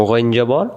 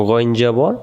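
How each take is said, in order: Both takes have the same delivery.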